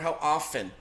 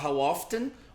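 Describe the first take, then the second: First: The T in often is left silent. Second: The T in often is clearly pronounced. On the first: "em algumas regiões não vai pronunciar o T" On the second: "você vai ouvir o T"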